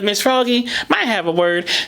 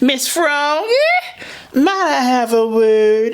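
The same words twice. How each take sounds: First: The pitch stays mostly flat and even. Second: The pitch moves up and down a lot. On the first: The speaker calls it wrong. "Instead of" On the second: The speaker calls it right. "using a lot of inflection, going up and down all over the voice"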